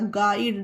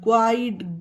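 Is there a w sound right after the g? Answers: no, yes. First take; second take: no; yes. First: The g goes straight into the vowel. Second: A w sound follows the g. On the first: The speaker calls it right. "गु नहीं हो रहा" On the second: The speaker calls it wrong. "कहीं पर भी यू का उच्चारण नहीं हो रहा"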